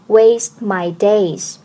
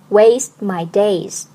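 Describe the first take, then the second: No difference in how they are said.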